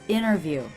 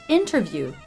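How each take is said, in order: First: The T after the N is dropped. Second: The T after the N is clearly pronounced.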